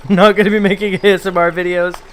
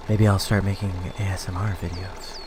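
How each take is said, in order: First: Said in the usual way. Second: Sultry voice. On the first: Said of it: "I'm just kidding". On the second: Pretend. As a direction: keep purring it, low and hushed. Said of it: "my sultry voice".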